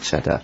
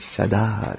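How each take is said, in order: First: The last syllable is short and unstressed. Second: The last syllable is long and stressed. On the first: The speaker calls it wrong. "not chadar" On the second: The speaker calls it right. "it's the last syllable. It has to be long"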